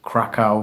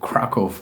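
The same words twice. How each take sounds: First: The name is said the common anglicized way. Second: The name is said close to the Polish pronunciation. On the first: "some people pronounce it Krakow" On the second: "the nearest approximation I can give to the Polish dude"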